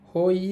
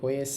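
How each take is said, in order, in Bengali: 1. সিলেবলটি 'hoi' এর মতো শোনায়। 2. সিলেবলটি 'hwe' এর মতো শোনায়। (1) "হই হবে না" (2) "কিন্তু হবে হয়ে সা"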